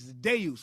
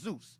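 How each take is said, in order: First: The name begins with a D sound. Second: The name begins with a Z sound. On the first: This is the claimed original Greek form. "among the Greeks, it was Deus with a D" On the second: This is the English form of the name. "Zeus in English is pronounced Zeus"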